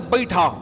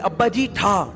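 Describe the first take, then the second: First: It is said fast, with the words run together. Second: It is said at normal speed, each word clear. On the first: "इतनी speed से बोलते" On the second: "कहते थे अब्बा जी ठा ठा करो"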